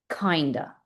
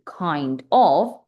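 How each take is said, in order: First: The words are blended into one reduced form. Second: The two words are said fully and separately. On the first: The speaker calls it right. "connected speech, juntar tus palabras" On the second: The speaker calls it wrong. "En vez de decir"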